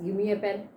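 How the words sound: Said in a polite, asking tone. It is a polite request. "When I request, give me a pen, so my tone is different"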